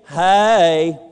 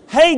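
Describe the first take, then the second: First: Hey is drawn out into two syllables, Georgia-style. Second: Hey is said plainly as one syllable.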